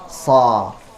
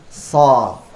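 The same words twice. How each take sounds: Both takes have the same delivery.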